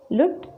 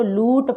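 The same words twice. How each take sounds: First: "लुट" with a brief, light u; short u. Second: "लूट" with a long, weighted oo. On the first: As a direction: cut the vowel of "लुट" short. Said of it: "कम वज़न दिया जा रहा है". ("लुट" में छोटा उ) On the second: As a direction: stretch the vowel of "लूट". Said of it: "ना तो हम इसको लूट पढ़ रहे हैं". ("लूट" में बड़ा ऊ) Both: Shown as a demonstration.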